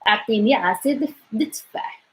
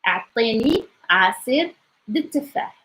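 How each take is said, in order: First: The phrase is said at a fast speed. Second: The phrase is said at a moderate speed. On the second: "It gets a little bit faster"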